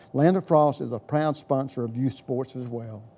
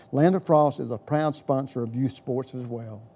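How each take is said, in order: Both takes have the same delivery.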